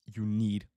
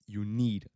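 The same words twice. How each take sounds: The two takes are said the same way.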